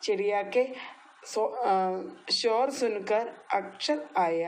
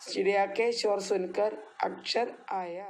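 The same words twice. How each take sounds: First: Slow, each word separated; teacher modelling the Hindi line slowly; slow repeat-after-me. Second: Said in the usual way. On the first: Shown as a demonstration. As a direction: draw out ഷോർ സുൻകർ so kids can follow. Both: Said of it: "എന്നോട് പറഞ്ഞേ".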